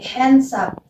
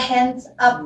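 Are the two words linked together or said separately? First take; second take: linked; separate. First: The final consonant links into the next vowel. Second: The two words are said separately. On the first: The speaker calls it right. "tapi hands up" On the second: The speaker calls it wrong. "Dibacanya nggak"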